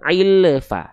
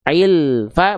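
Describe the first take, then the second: First: The L bounces with an added vowel before fa. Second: The L flows smoothly into fa without bouncing. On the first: The speaker calls it wrong. "bukan ilfa" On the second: The speaker calls it right. "Tapi ilfa"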